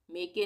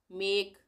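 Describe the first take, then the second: First: मेके said as two syllables, "me-ke"; wrong pronunciation. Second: मेक said short, with the final e silent; correct pronunciation. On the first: Teacher to students, showing the wrong reading मेके. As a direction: read मेके the wrong way, sounding the e. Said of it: "नहीं पढ़ेंगे". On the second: Teacher to students, showing the silent e in मेक. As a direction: say मेक as one syllable, "mek". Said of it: "मेके नहीं पढ़ेंगे". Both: Shown as a demonstration.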